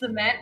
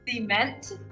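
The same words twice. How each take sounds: First: The word is said the standard way. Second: The word is said the Singaporean way.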